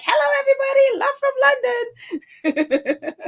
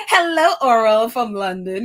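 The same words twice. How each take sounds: First: High, sing-song, slowed-down mock greeting with a laugh; mock cheery greeting. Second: Said in the usual way. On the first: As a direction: play up the viewer's cheery hello, drawing out love from London. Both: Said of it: "Or it's like".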